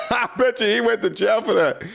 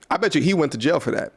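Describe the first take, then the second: First: Laughing through it, higher; amused laughing repeat, higher. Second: Said in the usual way. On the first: Real, not acted. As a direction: laugh out the joke again, pitched up. Repeats line while laughing.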